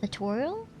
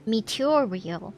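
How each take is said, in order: First: The name is said with its usual syllables. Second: The name is said with an extra middle syllable. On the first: The speaker calls it right. "is it really difficult to pronounce Material?" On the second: The speaker calls it wrong. "they read it as meteorial"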